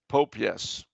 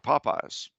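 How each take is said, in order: First: The name is split into 'Pope' and 'yes'. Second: The name is said the usual way.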